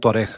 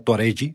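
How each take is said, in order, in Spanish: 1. La palabra termina con un sonido consonante. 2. La palabra termina con un sonido vocal añadido. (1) "en español sería" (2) "en portugués se pronuncia"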